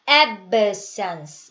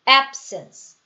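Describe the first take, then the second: First: The b is released with an added sound. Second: The b is held with the lips closed. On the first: The speaker calls it wrong. "여기다가 소리를 넣어주시면 안 돼요. absence 이게 아니라" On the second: The speaker calls it right. "ab 하고 음 하고 자크를 다시는 거예요"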